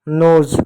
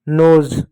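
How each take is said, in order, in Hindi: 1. यह शब्द 'z' की ध्वनि से खत्म होता है। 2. यह शब्द 'z' की ध्वनि से खत्म होता है।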